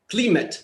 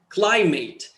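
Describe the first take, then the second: First: It is pronounced with Russian vowels and sounds. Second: It is pronounced with English vowels and sounds. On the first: The speaker calls it wrong. "in Russian" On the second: The speaker calls it right. "in English it's climate"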